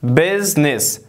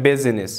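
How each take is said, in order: First: "Business" in two syllables, "BIZ-nis", middle I dropped; silent I. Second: "business" wrongly in three syllables, "BIZ-i-nis"; sounded middle I. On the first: English teacher modelling the exception, "Business" with silent I. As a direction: say "Business" with no vowel between z and n. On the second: English teacher showing what not to read, "business" with sounded I. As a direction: put an extra i between z and n in "business". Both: Shown as a demonstration.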